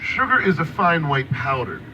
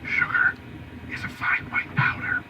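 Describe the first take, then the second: First: It is said at a louder volume. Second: It is said at a quieter volume.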